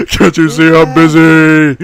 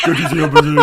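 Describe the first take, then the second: First: Louder mock yell; loud shout. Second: Laughing shout. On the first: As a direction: scream it with full force. Louder repeat. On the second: Yelling, laughing. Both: Real, not acted.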